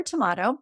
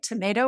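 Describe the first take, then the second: First: "tomato" with a broad A, tuh-MAH-toh; second tomato variant. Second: "tomato" with a long A, tuh-MAY-toh; first tomato variant. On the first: Guest likens it to two ways of saying "tomato", here tuh-MAH-toh. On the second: Guest likens it to two ways of saying "tomato", here tuh-MAY-toh. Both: Shown as a demonstration. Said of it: "You can say it either way".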